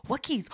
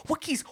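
First: Nervous question. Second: Rising panic. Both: Retold or imitated. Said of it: "because I was so afraid".

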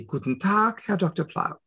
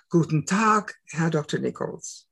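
First: German reply. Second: German greeting. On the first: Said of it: "and I say". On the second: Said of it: "he's speaking to me in German". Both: Retold or imitated.

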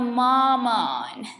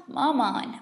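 First: Long sulky mamaaan; whiny drawn-out mamaaan. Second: Said in the usual way. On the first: Acted. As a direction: stretch mamaaan slowly, whining. Drawn-out whine at mother.

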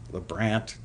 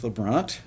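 First: LeBrant with the "a" of "ant"; flat A vowel. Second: LeBrant with an "ah", like "luh-BRAHNT"; open AH vowel. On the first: Host unsure of the composer's name, retries LeBrant with short A. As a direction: say LeBrant to rhyme with "grant". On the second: Host unsure of the composer's name, tries LeBrant with AH. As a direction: say LeBrant to rhyme with "font". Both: Shown as a demonstration. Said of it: "type in the pronunciation of your name".

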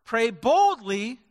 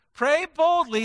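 First: Said in the usual way. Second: Emphatic call. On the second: Shown as a demonstration. Preacher repeats it, now punched.

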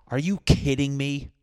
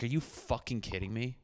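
First: Loud, high disbelief; exasperated outburst. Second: Soft, deflated disbelief under the breath; muttered disbelief. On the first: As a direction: blurt it out loud in outrage. Biting into raw chicken. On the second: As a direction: say it quietly, beaten down. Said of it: "And I was just like". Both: Retold or imitated.

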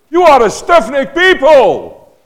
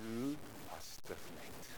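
First: High, loud, slow furious shout; angry rebuke. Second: Softer, slow and calm, almost kind; gentle rebuke. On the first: Preacher demonstrating his angry face to the church, furious shout. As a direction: bellow it like a wrathful prophet. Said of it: "with a really angry face". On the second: Preacher rebuking the congregation gently, soft and slow. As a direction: let the hard word land softly. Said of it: "I can say it with my angel face". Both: Shown as a demonstration.

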